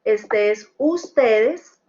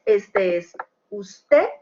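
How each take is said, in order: First: Slow and clear, stress on the ending of ustedes; plural ustedes. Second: Slow and clear, stress on usted; singular usted. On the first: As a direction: stretch out ustedes slowly to mark the plural. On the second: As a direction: spell out usted slowly, singular you. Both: Shown as a demonstration. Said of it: "tenemos you de ustedes".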